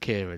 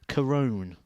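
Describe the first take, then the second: First: The name is said like the English name Kieran. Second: The name is said with a rounded 'Corone' sound. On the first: This is how everyone in England says it. The speaker calls it wrong. "I've always called him Kieran" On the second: This is how the player himself says it. The speaker calls it right. "it's something like Corone is how it's pronounced"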